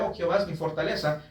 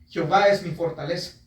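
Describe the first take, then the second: First: It is said casually, without real conviction. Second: It is said earnestly, with deep conviction.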